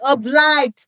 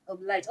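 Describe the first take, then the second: First: "Obliged" belted out high and loud; emphatic self-correction. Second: Said in the usual way. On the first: Real, not acted. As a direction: blurt out "Obliged" with big emphasis. Loudly repeats the corrected word.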